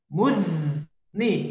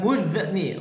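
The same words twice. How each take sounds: First: The z sound is held smoothly without a bounce. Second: The z sound is released with a bouncing echo. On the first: The speaker calls it right. "sempurnakan zalnya" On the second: The speaker calls it wrong.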